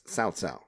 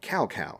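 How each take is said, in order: First: The name is said with its Chinese pronunciation. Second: The name is said with an anglicized pronunciation. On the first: The speaker calls it right. "they started pronouncing it correctly" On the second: The speaker calls it wrong. "actually a mispronunciation of his Chinese name"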